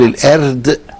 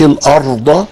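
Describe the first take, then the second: First: A light first vowel and a light r. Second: A heavy first vowel and a heavy r. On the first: "ولا تقول الأرض لأن كده هتخلي الراء مرققة" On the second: "مش الأرض، لأنه كده هتخلي الهمزة مفخمة"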